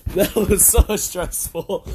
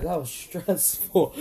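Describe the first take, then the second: First: Relieved sigh. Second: Said in the usual way. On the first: Real, not acted.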